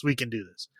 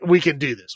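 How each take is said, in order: First: Much lower and much softer, the words trail away; mock pep talk, fading. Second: Lightly voiced, chirpy self-encouragement; a hint of actors hyping each other up; mock pep talk. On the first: Imitating bad actors psyching themselves up, quiet mock. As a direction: say it again under the breath. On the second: Imitating bad actors psyching themselves up, light mock. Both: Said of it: "They're like".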